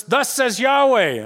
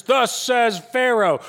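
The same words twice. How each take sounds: First: Slow, loud, high proclamation; proclaiming. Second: Slow, loud, high herald call; proclaiming. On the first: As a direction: announce it like a herald, slow and loud. Contest of proclamations, Moses side. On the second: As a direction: boom it out slowly like a royal herald. Contest of proclamations, taskmasters side. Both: Retold or imitated.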